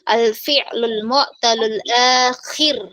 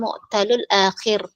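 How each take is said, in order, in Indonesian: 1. Suku kata terakhir memiliki vokal 'ee'. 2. Suku kata terakhir memiliki vokal 'eh'. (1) "pakai i bukan pakai e"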